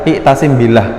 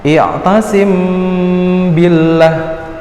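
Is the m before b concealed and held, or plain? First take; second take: plain; concealed. First: The m is pronounced plainly and briefly. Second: The m is softened, nasal and held longer. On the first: The speaker calls it wrong. "nggak boleh dibaca biasa" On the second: The speaker calls it right. "Dia harus disamarkan"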